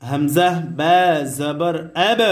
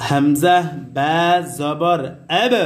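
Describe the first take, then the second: Both takes have the same delivery.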